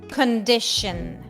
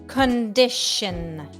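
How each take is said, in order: Both takes have the same delivery.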